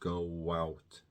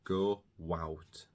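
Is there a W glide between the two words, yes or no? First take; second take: yes; yes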